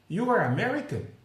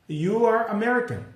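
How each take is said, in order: First: The voice rises at the end like a question. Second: The voice falls at the end like a statement.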